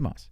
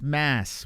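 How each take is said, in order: First: The vowel sounds like the one in 'cot'. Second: The vowel sounds like the one in 'cat'. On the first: The speaker calls it right. "Just say Moss" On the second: The speaker calls it wrong.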